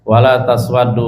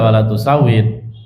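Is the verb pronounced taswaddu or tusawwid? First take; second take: taswaddu; tusawwid. First: The verb is pronounced taswaddu. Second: The verb is pronounced tusawwid. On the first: The face would turn dark by itself. The speaker calls it wrong. "kalau dibaca wala taswaddu wajhi ya salah" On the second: God is asked not to darken the face. The speaker calls it right. "Yang betul ya wala tusawid"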